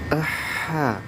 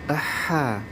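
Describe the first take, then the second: First: A short 'a' sound comes before the h. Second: The same.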